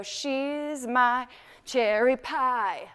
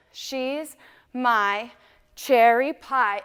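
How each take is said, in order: First: Slow. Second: Said in the usual way. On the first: Shown as a demonstration. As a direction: stretch every word out slow. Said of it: "Slow, slow". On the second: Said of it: "And you wanna throw your head on that".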